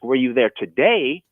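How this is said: The stress is on "today".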